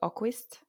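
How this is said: The name is said the Finnish way.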